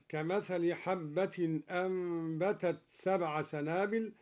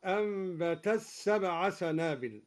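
First: Said in the usual way. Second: أنبتت سبع said ambeta sebʕa, the final ت merged into the س; taa merged into seen. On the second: Shown as a demonstration. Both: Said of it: "أدغم الدوري التاء في السين هكذا".

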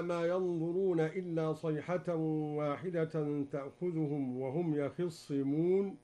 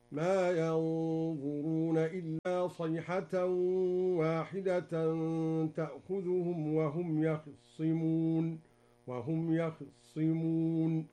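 First: Said in the usual way. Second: Slow chanted recitation with يخصمون and the kha vowel hidden; Duri reading, recited. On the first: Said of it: "قرأ الدوري بإخفاء فتحة الخاء". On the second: Shown as a demonstration. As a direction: yakhissimun with a barely voiced vowel on the kh. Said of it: "هكذا". (إخفاء فتحة الخاء في يخصمون بترتيل بطيء)

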